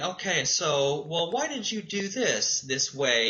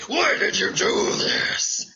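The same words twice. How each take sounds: First: Calm, patient question; calm asking why. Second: Loud, higher, slower accusing why; harsh demanding why; mean. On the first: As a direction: ask gently, no edge. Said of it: "if we say it calmly". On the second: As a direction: bark it like an accusation. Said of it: "and get all mean". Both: Shown as a demonstration.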